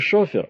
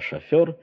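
First: The stress is on the first syllable. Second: The stress is on the second syllable. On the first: The speaker calls it wrong. "не «шофер»" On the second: The speaker calls it right. "а «шофер»"

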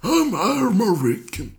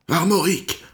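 First: The word is pronounced the English way. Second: The word is pronounced the French way.

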